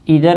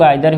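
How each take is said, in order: First: The first vowel sounds like 'ee'. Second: The first vowel sounds like 'eye'. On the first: "ईदर आता है" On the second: "जिसको हम लोग आइदर भी बोलते हैं"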